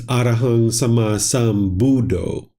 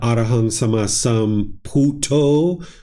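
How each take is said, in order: First: The last word begins with a b sound. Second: The last word begins with a p sound. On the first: This is the Sri Lankan way of saying it. "if you go to Sri Lanka" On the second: This is the Thai way of saying it. "which is what you hear in, in Thailand"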